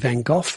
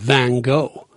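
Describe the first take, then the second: First: The name is said in the local way. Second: The name is said in an American way. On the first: "we tend to say Van Gogh" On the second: "the Americans call him Van Gogh"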